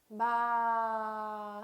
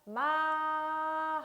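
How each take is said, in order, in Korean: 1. 음절을 지나면서 높이가 내려간다. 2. 처음부터 끝까지 높이가 평평하게 유지된다. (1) "마 하고 내려줍니다" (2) "이렇게 성조 없이 그대로 발음하면 되겠습니다"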